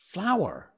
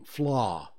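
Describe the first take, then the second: First: It sounds like 'flower' with two syllables. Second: It is a short 'fla' with no final syllable. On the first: This is how the speaker says the word. The speaker calls it right. "It's not fla. It's flour" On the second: This is how people locally say the word. The speaker calls it wrong. "Flour is fla. At least to my ear, that's what it sounds like they're saying"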